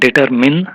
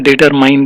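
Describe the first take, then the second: First: The last syllable sounds like 'min'. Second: The last syllable rhymes with 'mine'. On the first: The speaker calls it right. "Pronunciation எப்படி இருக்குன்னு பார்த்தீங்கன்னா டிட்டர்மின்" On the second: The speaker calls it wrong. "டிட்டர்மைன்னு சொல்லி பழகிக்கணும்"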